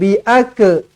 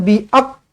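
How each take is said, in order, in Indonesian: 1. Bunyi akhir memantul menjadi vokal tambahan. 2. Bunyi akhir terputus tanpa hembusan napas. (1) "Ataupun lantun" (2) "tak ada bunyi angin, tersekat je"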